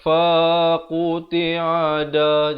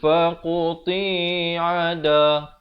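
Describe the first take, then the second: First: The syllable fa is drawn out long. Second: The syllable ti is drawn out long. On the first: "Jangan baca faqti'a da, jadi fa jadi panjang" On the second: "ti pula jadi panjang"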